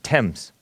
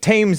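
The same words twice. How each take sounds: First: It is said differently from its spelling. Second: It is said the way it is spelled. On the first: The speaker calls it right. "but it's pronounced Thames" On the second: The speaker calls it wrong. "it looks like"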